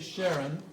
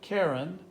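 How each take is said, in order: First: The name begins with an SH sound. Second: The name begins with a K sound. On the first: "some people say Sharon" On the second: "some people say Karen"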